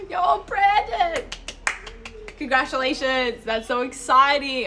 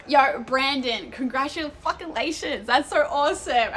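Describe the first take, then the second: First: Much higher, loud, slow, near-crying cheer; second take, bigger and more squealed; squealing congratulations. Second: High, loud, drawn-out cheer for a friend; first excited take, loud and slow; excited congratulations. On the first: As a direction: gush over the friend's news. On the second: First reading of congratulations in chat. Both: Real, not acted.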